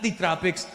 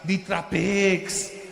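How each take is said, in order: First: It is said in a plain American accent. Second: It is said in a Filipino-style accent. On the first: It means the tropical region. "I love the tropics" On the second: It means traffic. "Look at all the cars on the road"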